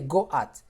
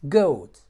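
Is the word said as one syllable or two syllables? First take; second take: two syllables; one syllable. First: The vowels are split into two syllables. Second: The vowels glide together in one syllable. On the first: The speaker calls it wrong. "You don't say go at" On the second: The speaker calls it right. "you have to pronounce the word as, as diphthongs"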